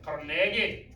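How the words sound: It is said in a thick Scottish accent.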